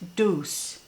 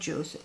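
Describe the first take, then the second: First: The word begins with a D sound. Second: The word begins with a J sound. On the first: The speaker calls it right. "that's how you pronounce it" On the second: The speaker calls it wrong. "not juice"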